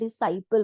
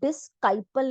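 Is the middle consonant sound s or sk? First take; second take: s; sk. First: The middle is pronounced with a plain s sound. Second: The middle is pronounced with an sk sound. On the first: The speaker calls it right. "डिसाइपल बोल रहे हैं" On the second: The speaker calls it wrong. "हम डिस्काइपल नहीं बोल रहे हैं"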